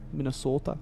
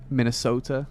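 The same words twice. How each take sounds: First: "Minnesota" with a long, pure Midwestern O; Minnesota accent. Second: Said in the usual way. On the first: Shown as a demonstration. Streamer listing American accents for viewers, mock Minnesota accent.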